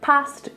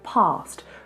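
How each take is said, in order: First: The vowel is short and flat, northern style. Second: The vowel is long and broad, RP style. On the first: "if you're from somewhere like Liverpool, you will say past" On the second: "if you speak in an R P British accent, you will say past"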